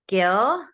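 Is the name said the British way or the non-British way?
non-British. The name is said the non-British way.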